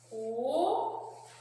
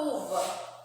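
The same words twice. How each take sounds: First: "Uva" split as u, pause, va; syllable by syllable. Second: Said in the usual way. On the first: Shown as a demonstration. Teacher separating a word for children, "Uva" syllable by syllable. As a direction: draw out the U of "Uva", then a separate va. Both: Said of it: "nós vamos separar as sílabas".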